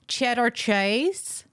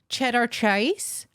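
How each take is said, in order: First: The name is said in an American accent. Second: The same.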